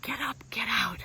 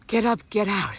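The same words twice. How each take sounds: First: Whispered, breathy and soft; a private whisper of the mantra. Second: Said in the usual way. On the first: Shown as a demonstration. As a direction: whisper it to yourself. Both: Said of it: "guess what mine is?".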